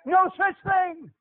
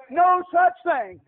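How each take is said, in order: First: Higher, slow firm denial; slow emphatic denial. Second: Higher, slow, stress on such; preacher's emphatic denial; louder slow denial. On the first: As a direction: stress No, slowly. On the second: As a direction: hammer such. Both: Shown as a demonstration.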